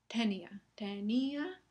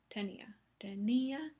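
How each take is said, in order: Both takes have the same delivery.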